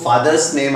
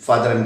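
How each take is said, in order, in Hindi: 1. Father को s की आवाज़ के साथ बोला जाता है। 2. Father को बिना s की आवाज़ के बोला जाता है। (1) "आपको फादर्स नेम आपको बोलना है" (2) "दैट इज रॉन्ग, गलत है।"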